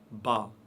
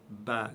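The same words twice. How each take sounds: First: The syllable is said heavy and full. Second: The syllable is said light and thin. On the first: The speaker calls it wrong. "On ne dit pas Ba, Ba, Ba, c'est faux" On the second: The speaker calls it right. "c'est prononcé légèrement"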